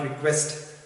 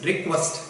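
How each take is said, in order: First: "request" with a tenser ee in the first syllable; incorrect pronunciation. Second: "request" with a short i in the first syllable; correct pronunciation. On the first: Teacher warns the class off this version, mispronounced "request". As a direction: show the mistaken "request", opening like "ree". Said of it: "not request". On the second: Teacher models the word for the class, correct pronunciation of "request". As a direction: model "request" firmly, short opening vowel. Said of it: "the pronunciation of the word is". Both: Shown as a demonstration.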